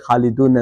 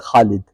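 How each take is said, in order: First: The name ends with a final 'un' sound. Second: The name ends without any final 'un' sound. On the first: This is the full case ending used while learning grammar. The speaker calls it wrong. "when you speak, you don't say Khalidun" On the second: This is the form used in everyday conversation. The speaker calls it right. "You just say Khalid"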